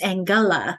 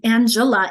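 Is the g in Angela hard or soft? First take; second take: hard; soft. First: The g is hard, as in girl. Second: The g is soft, like a j sound. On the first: The speaker calls it right. "it's Angela, like in g- girl and get" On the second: The speaker calls it wrong. "it's not Ang- Angela"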